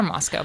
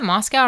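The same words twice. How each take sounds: First: "Moscow" with the second syllable like "co"; Moscow rhyming with go. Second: "Moscow" with the second syllable like "cow"; Moscow rhyming with cow. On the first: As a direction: say "Moscow" ending in a long o. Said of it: "People tell me it's Moscow". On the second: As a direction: say "Moscow" ending in an ow sound. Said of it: "Is it Moscow or Moscow". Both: Shown as a demonstration.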